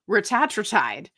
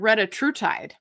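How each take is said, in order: First: The name is said as ra-ta-tra-tide. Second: The name is said as re-ta-tru-tide. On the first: A few other creators say it this way. The speaker calls it wrong. "There's like five people that say Ratatratide" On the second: The speaker prefers this form. The speaker calls it right. "I just think Retatrutide sounds better"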